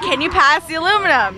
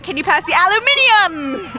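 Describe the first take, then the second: First: The last word is said with four syllables. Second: The last word is said with five syllables. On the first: The speaker calls it right. "you're like, can you pass the aluminum?" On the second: The speaker calls it wrong.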